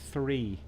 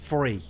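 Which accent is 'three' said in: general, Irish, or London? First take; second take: general; London. First: The word is said in a general accent. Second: The word is said in a London accent. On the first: "Or three everywhere else" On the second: "Or if you're from London, it's free"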